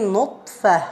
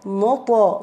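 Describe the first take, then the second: First: The consonant is held closed without release. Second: The consonant is released with a slight bounce. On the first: The speaker calls it wrong. "when you say nutfa, you are closing the articulation point" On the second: The speaker calls it right. "we need to open it"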